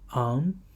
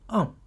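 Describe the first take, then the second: First: The syllable is said with the second tone. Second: The syllable is said with the fourth tone.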